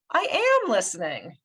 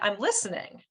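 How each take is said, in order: First: The stress is on "am". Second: The stress is on "listening".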